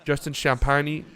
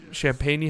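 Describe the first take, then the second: First: Champagny said as sham-PIE-nee, ending in nee; testing the name as Champagny; trying a pronunciation. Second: Champagne? said as sham-PAIN like the drink, a questioning rise; testing the name as Champagne?; trying a pronunciation. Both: Shown as a demonstration. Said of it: "How do you pronounce that?".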